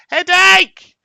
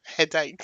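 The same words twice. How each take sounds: First: Sudden loud, high yell; big burst of a high-pitched shout; excited shout. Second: Said in the usual way. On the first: Real, not acted. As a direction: shout it out high at full volume. Calling out the chat suggestion.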